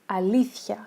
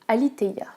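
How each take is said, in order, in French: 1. Le nom se prononce à la grecque. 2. Le nom se prononce à la française.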